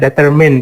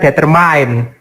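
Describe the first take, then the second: First: The last vowel is short and flat. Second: The last vowel sounds like the letter I. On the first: The speaker calls it right. "Jadi dia lebih kayak I E gitu ya, di flat gitu ya" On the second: The speaker calls it wrong. "tidak semua kata I dan E itu dibaca I kayak determine itu bukan determine"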